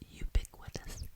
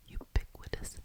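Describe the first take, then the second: No difference in how they are said.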